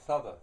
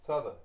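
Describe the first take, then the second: First: The two words blend into one reduced word. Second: The same.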